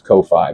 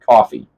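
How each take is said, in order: First: It is said as two parts, koh-fee. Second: It sounds just like the word coffee. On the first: "I don't know if it's Ko-Fi" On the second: "I pronounce that coffee"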